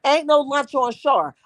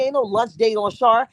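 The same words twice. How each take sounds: First: "no" leaned on, the whole line slowed and spaced out; slow it down and hit "no" hard; firm refusal, slowed. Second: Said in the usual way. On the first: Shown as a demonstration. Showing chat how to turn down a lunch moocher, slow and firm.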